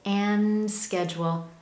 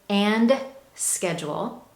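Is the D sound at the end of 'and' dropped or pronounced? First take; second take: dropped; pronounced. First: The D at the end of 'and' is dropped. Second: The D at the end of 'and' is pronounced. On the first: The speaker calls it right. "I say and schedule" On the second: The speaker calls it wrong. "Notice I don't say and schedule"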